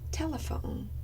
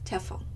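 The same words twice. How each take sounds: First: All three syllables are pronounced. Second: The unstressed middle syllable is left out. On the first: The speaker calls it right. "instead of saying telephone" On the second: The speaker calls it wrong. "I deleted the unstressed syllable"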